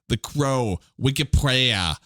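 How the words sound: The title is said in a Boston accent.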